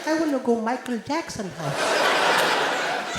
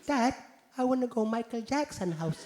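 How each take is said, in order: First: Put-on slow, drawn-out Indian kid repeating. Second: Put-on soft, quiet little Indian kid pleading; small Indian boy asking his dad quietly. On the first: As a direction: plead each word slowly, Indian accent. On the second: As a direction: ask Dad shyly in an Indian accent. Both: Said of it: "Indian kid".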